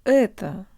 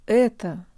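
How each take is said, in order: First: The first vowel has a darker, schwa-like sound. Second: The same.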